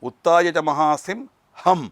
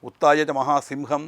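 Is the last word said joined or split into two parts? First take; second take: split; joined. First: The last word is split before the final syllable. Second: The last word is said as one joined word. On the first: It names a weapon followed by the cry made when using it. The speaker calls it right. "ആ ഹം എന്നുള്ളത് ആയുധം പ്രയോഗം ചെയ്യുമ്പോൾ ദേവി പുറപ്പെടുവിക്കുന്ന ശബ്ദമാണ്" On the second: It means a great lion. The speaker calls it wrong. "എന്ന് എല്ലാവരും വായിക്കും"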